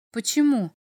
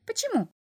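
First: Said in the usual way. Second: Very high, squeaky imp question; little devil's question. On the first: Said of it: "машинально спросил Максим". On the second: A narrator's reading. Little devil questions the sad boy, piping. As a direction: pipe it up high, then let it fall. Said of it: "затараторил чертёнок".

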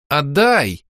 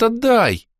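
First: Louder stubborn отдай; firm repeat. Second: High excited отдай; bright girlish отдай, thrilled; eager demand. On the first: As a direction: insist on отдай, pressing. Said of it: "повторила юная богиня". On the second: First demand. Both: A narrator's reading.

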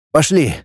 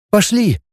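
First: Said in the usual way. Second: High, meek assent; submissive. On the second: Acted. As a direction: agree obediently in a raised pitch. (покорно, высоким голосом) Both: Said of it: "покорно сказала Мальцева".

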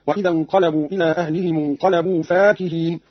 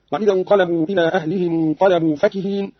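First: فاكهين with a long aa, "faakihin"; alif after fa. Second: Said in the usual way. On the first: Shown as a demonstration. Teacher showing Qalun's reading, فاكهين with alif after ف. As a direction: lengthen the first vowel of فاكهين. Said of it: "بألف بعد الفاء هكذا". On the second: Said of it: "قرأ قالون بألف بعد الفاء".

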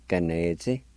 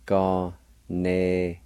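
First: Said in the usual way. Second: "Ga-ne-zi" slowly, syllables apart; syllable-by-syllable pronunciation. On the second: Shown as a demonstration. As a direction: break "Ga-ne-zi" into drawn-out syllables. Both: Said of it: "it's pronounced like this".

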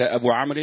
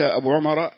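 First: Student rereads أبو عمرو as "Abu Amrin"; corrected name. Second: Student reads أبو عمر as "Abu Umar"; misread name. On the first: Student rereading after the teacher's correction, name as "Abu Amrin". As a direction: say أبو عمرو with "a" first and an "-in" ending. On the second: Student reading to his teacher, name misread as "Abu Umar". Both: Real, not acted.

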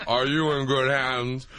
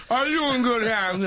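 First: Lower announcer take. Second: Higher, louder take. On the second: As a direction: jump up high and louder. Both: Retold or imitated. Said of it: "Allstate guy".

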